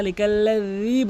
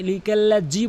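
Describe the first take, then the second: First: Tongue tip to teeth, stretch the end of "লিকাল্লাজি"; correct dhal. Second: "লিকাল্লাজি" ending in hard ji; mistaken j sound. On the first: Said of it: "লিকাল্লাজি বলতে হবে". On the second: Teacher warns against this, hard j. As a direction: say "লিকাল্লাজি" with j for dhal. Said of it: "কখনোই লিকাল্লাজি বলবেন না". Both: Shown as a demonstration.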